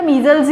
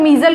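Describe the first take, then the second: First: Said in the usual way. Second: मीजल ending on an l; मीजल as a mistaken singular, ending in l; final s left off. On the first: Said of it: "मीजल्स ही होता है". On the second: Shown as a demonstration. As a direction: say मीजल with no s sound at the end. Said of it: "मीजल कुछ नहीं होता".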